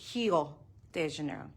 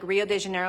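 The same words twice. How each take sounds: First: Rio begins with an H sound. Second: Rio begins with an English R sound.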